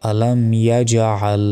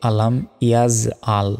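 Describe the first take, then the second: First: আলাম ইয়াজআল slowly, bounced j and throaty ain; ইয়াজআল with a hard j, never z; correct pronunciation demo. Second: আলাম ইয়াজ আল with z for j and a plain a for ain; wrong ইয়াজ আল, buzzing z and plain vowel; mispronunciation demo. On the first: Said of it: "এখানে সঠিক উচ্চারণটা হচ্ছে". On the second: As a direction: say ইয়াজ as "yaz", আল without throat squeeze. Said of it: "আমরা অনেকে ভুল উচ্চারণ করি". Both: Shown as a demonstration.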